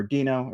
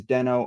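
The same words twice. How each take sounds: First: "Dino" said DEE-noh, long ee; Dino pronunciation. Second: "Deno" said DEN-oh, short e; Deno pronunciation. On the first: Presenter answering a comment on the name, "Dino" as DEE-noh. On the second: Presenter answering a comment on the name, "Deno" as DEN-oh. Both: Shown as a demonstration. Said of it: "whether the pronunciation is".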